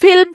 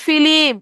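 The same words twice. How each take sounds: First: Said in the usual way. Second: ফিলিম said fi-lim with an i between l and m; ফিলিম in three clear syllables; vowel inserted into film. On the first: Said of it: "ফিল্ম থেকে কি হয়ে গেল?". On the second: Shown as a demonstration. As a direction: split the cluster: ফিলিম. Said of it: "এই ল আর ম আলাদা হয়ে গেছে".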